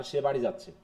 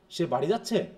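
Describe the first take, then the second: First: Low, falling যাচ্ছে with no rise; statement intonation. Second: Tune dips and swings up on যাচ্ছে; question intonation. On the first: Teacher contrasting with the question, statement fall on যাচ্ছে. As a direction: state it plainly, letting যাচ্ছে drop. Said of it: "ইন্টোনেশনের rising নাই". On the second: Teacher saying one sentence two ways, question tune on যাচ্ছে. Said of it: "এটা প্রশ্ন". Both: Shown as a demonstration.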